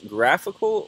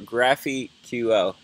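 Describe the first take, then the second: First: It is said like the word graphical. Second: It ends with the letters Q and L. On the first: It sounds like a real word. The speaker calls it right. "someone called it graphical" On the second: It is read from the spelling. The speaker calls it wrong. "I've been calling this GraphQL"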